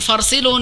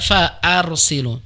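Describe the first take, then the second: First: It runs straight on with no glottal stop. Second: A glottal stop is pronounced before 'arsilun'. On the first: The speaker calls it wrong. "bukan farsilun" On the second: The speaker calls it right. "hamzah qat'i Ibu ya, sehingga dibaca fa'arsilun"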